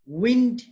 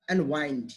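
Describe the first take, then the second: First: Wind, short clipped i. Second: Wind, long ai diphthong. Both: Shown as a demonstration. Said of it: "So wind is not wind".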